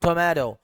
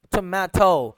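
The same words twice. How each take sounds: First: टोमेटो with a d-like tap in the last syllable; American soft T. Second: टोमेटो as "to-MAH-to", clear t; British tomato. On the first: Teacher demonstrating American टोमेटो, t turned to d. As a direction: say टोमेटो as "tomaydo". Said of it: "टी की आवाज को डी के साथ replace". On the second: Teacher demonstrating British टोमेटो, t fully sounded. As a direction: open ah and crisp t in टोमेटो. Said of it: "British का sound very clear होता है". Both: Shown as a demonstration.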